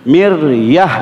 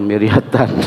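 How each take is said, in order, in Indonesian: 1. Kata ini berakhir dengan bunyi h lembut. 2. Kata ini berakhir dengan suku kata -tan penuh. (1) "Sekarang matikan huruf akhirnya" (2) "jangan miryatan"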